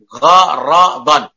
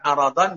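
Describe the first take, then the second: First: The word begins with a rasping gh sound. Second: The word begins directly with a vowel. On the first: The speaker calls it right. "Pakai ghain bukan ain" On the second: The speaker calls it wrong. "Bukan aradan"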